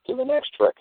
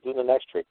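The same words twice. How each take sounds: First: Exasperated squeal. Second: Said in the usual way. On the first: Retold or imitated. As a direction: Do the next trick in a sudden high mock squeal. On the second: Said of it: "I said".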